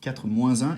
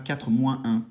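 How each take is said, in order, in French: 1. Le S final de moins se lie à un. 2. Le S final de moins est muet devant un. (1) "je dis ... je fais une liaison entre le moins et le un" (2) "Je ne dis pas"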